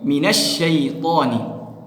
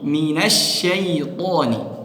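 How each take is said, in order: No difference in how they are said.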